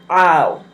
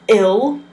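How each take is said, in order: First: It starts with the long 'eye' vowel. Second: It starts with a short 'ih' vowel. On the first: The speaker calls it right. "pronounce it like you're saying I, and you put an ul at the end" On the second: The speaker calls it wrong. "You don't pronounce this ill"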